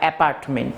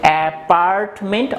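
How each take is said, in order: First: It is said with a British accent. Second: It is said with an American accent. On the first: "British English follow করো" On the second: "যদি American English follow করো"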